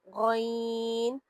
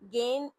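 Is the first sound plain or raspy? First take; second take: raspy; plain. First: The first sound is a raspy, squeezed throat sound. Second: The first sound is a plain, smooth g. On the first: The speaker calls it right. "निचोड़ कर आवाज को निकालेंगे" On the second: The speaker calls it wrong. "गेन ऐसे सीधे सीधे नहीं पढ़ना"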